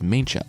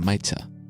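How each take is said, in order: First: The middle of the name sounds like 'ncha'. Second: The middle of the name sounds like 'tza'. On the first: The speaker calls it wrong. "I pronounced it as Maincha" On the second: The speaker calls it right. "it's really closer to Maitza"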